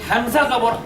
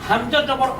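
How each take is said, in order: The two takes are said the same way.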